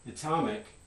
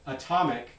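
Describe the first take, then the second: First: The first vowel is higher and more front. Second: The first vowel is a central, neutral schwa. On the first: "that was with a higher front or vowel" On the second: "that sounds fine"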